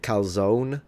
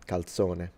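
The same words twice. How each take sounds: First: The final vowel of the word is dropped. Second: The final vowel of the word is pronounced. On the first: This is how Americans say it. "Italian Americans sometimes pronounce it calzone" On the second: This is how it is pronounced in Italian. "So you have to pronounce the whole thing"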